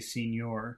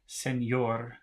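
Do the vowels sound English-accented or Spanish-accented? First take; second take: English-accented; Spanish-accented. First: The vowels sound English-accented. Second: The vowels sound Spanish-accented. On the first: The speaker calls it wrong. "as an English speaker, I would like to say señor" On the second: The speaker calls it right. "but it's not, it's se"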